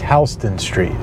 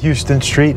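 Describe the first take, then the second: First: It is said the local way. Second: It is said the way it is spelled. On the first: The speaker calls it right. "it's Houston Street" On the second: The speaker calls it wrong. "It's spelled like Houston, but it's not Houston Street"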